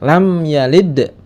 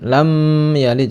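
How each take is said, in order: First: The vowel in 'lam' is kept short. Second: The vowel in 'lam' is drawn out long. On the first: The speaker calls it right. "tapi dibaca pen pendek" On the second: The speaker calls it wrong. "jangan lam yalid, salah"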